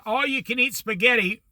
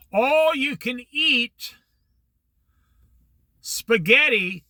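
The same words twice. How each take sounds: First: Said in the usual way. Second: Slow, high, every word stressed on All; "All you can eat" stretched out like an ad slogan; emphatic announcement. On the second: Retold or imitated. Boss proudly pitching the Saturday deal, slow and emphatic.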